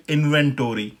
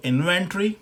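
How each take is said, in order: First: इन्वेंटरी as in-ven-tor-ee, falling; full tory ending in इन्वेंटरी; American pronunciation. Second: इन्वेंटरी as in-ven-tree, higher, rising; British pronunciation. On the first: Teacher compares both inventories, American pronunciation. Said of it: "और American हो गई". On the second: Teacher compares both inventories, British pronunciation. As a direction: end इन्वेंटरी on a short tree. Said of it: "जो British pronunciation इसकी है". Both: Shown as a demonstration.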